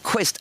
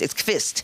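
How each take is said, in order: First: The name begins with a 'kw' sound. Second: The name begins with a 'kv' sound. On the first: The speaker calls it wrong. "It's not Quist" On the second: The speaker calls it right.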